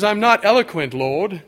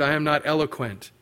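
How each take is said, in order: First: Mock English accent. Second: Said in the usual way. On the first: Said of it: "Probably had an English accent".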